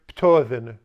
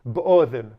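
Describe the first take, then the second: First: It starts with p and the d becomes t. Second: It starts with b and the d is dropped. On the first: "the deleth pronounced as a tau" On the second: "skip the delef"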